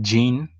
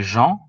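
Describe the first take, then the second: First: The name is said with an English accent. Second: The name is said with a French accent. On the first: "in English, they could pronounce it Jean" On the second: "In French, they would say Jean"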